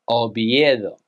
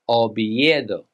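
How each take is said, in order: First: It is pronounced with Spanish sounds. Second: The same.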